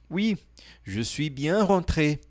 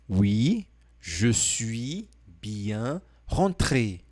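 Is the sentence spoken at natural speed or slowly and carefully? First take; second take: natural speed; slowly. First: It is spoken at a natural, flowing speed. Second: It is spoken slowly and carefully.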